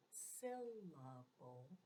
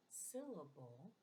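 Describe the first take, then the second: First: "syllable" said slowly, each syllable separate for chin drops; syllables drawn out. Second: Said in the usual way. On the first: Shown as a demonstration. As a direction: stretch out "syllable" syl-la-ble, one beat per chin drop. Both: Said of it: "how many times you drop your chin".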